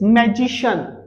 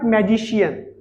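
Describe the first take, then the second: First: The ending is a short single 'shun' syllable. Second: The ending is drawn out as 'shee-un'. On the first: The speaker calls it right. "So it's" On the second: The speaker calls it wrong.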